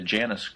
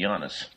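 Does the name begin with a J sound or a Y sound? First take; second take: J sound; Y sound. First: The name begins with a J sound. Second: The name begins with a Y sound. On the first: "in the game version, they kept saying the Janus group" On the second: "in the Latin alphabet, the J is replaced with an I"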